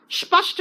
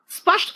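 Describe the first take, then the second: First: स्पष्ट said with a plain स, spəsʈ; wrong pronunciation. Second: स्पष्ट with the retroflex ष, spəʂʈ; correct pronunciation. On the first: Teacher shows pupils the mistake: स्पष्ट with plain स. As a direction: deliberately say स्पष्ट wrongly with a hissing s. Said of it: "स्पष्ट नहीं कहा". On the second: Teacher shows pupils the right sound: स्पष्ट with curled ष. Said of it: "स्पष्ट कहा". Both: Shown as a demonstration.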